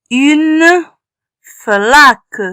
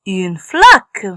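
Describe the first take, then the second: First: "Une flaque" split apart, drawn out; sounding out. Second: Said in the usual way. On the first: Shown as a demonstration. Teacher sounding out the word for children, slowly. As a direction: decode "Une flaque" piece by piece.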